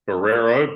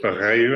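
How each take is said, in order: First: The name is read out as it is spelled. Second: The name uses its local Portuguese pronunciation. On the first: The speaker calls it wrong. "spelt Barreiro" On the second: The speaker calls it right. "but pronounced Barreiro"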